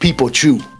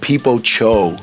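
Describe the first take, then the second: First: The last word ends with an 'oo' vowel. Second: The last word ends with an 'oh' vowel. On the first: The speaker calls it right. "But it's called it's called People Chew" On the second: The speaker calls it wrong. "they were like, "Yo, I love People Cho.""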